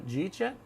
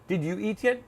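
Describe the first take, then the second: First: The words blend together into one reduced chunk. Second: Each word is said separately and in full. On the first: The speaker calls it right. "So, so normal" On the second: The speaker calls it wrong. "we don't say, did you eat yet? No one says that"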